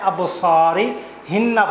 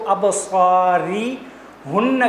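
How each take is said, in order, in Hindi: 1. यह सर्वनाम 'i' स्वर के साथ बोला जाता है। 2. यह सर्वनाम 'u' स्वर के साथ बोला जाता है। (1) "पढ़ा जाएगा" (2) "के बजाय"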